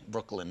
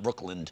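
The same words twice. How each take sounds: First: The word is said without a d sound. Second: The word is said with a d sound. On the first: The speaker calls it right. "There's no D" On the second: The speaker calls it wrong. "not Brooklyn"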